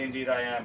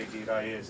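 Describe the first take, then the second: First: Said in the usual way. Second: Newfoundland "Indeed I is", first word shortened to "deed"; Newfoundland dialect. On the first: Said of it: "you might say". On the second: Shown as a demonstration. Teaching visitors the local answer, Newfoundland dialect. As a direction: say "Indeed I is" as a clipped Newfoundland "'deed I is". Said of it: "but in Newfoundland, we say".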